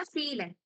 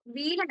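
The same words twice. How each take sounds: First: ഫീലൻ said with a clear F, as in feel; F sound at the start of ഫീലൻ; German V as F. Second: വീലൻ said with a V, the wrong way; V as in van for വീലൻ; wrong V sound. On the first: Teacher correcting a student's German V. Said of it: "വീലൻ അല്ല, ഫീലൻ". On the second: Teacher showing the student's wrong V. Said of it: "വീലൻ അല്ല". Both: Shown as a demonstration.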